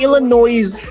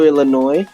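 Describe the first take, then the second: First: The final s is pronounced. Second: The final s is silent. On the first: The speaker calls it wrong. "I didn't say Illinois" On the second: The speaker calls it right. "I said it right that time"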